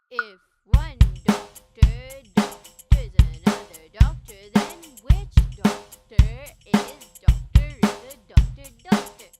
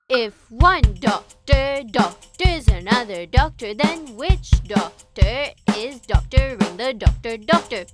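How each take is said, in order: First: It is said at a slower pace. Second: It is said at a faster pace.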